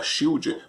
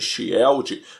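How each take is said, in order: First: It is said with English pronunciation. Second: It is read with Portuguese letter sounds. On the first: This is how it is really pronounced. The speaker calls it right. "Depois eu aprendi que era Shield" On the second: This is how a child read the spelling. The speaker calls it wrong. "que eu chamava de Shield, porque era assim que estava escrito"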